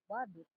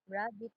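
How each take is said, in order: First: The word begins with a W sound. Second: The word begins with an R sound. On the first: "with the glide replacing the liquid" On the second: "rabbit is pronounced as"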